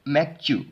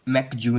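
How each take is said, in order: First: The second syllable starts with a tense 'ch' sound. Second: The second syllable starts with a soft 'j' sound. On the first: The speaker calls it right. "च की sound" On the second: The speaker calls it wrong. "मैकजू नहीं पढ़ेंगे"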